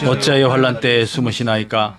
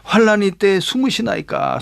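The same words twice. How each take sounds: First: Low, monotone congregational reading; scripture reading. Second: Mildly pleading question to God; earnest plea. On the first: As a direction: recite the verse evenly on a low note. 성경 구절을 함께 낭독. (낮고 단조로운 성경 낭독) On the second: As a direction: put the verse to God as a plea. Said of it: "간절히 간구하는". (간절히 묻는 간구) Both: Acted.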